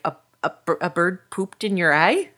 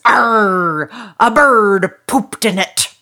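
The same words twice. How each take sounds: First: Halting, stammered question rising at the end; puzzled little boy. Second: Loud, raised pirate growl. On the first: Little boy pauses at pirate's answer, baffled. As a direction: stumble over it in disbelief. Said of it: "the little boy pauses". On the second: Pirate answering the little boy about his eye patch, booming. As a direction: announce it with a big piratical arr. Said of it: "And the pirate says". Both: Acted.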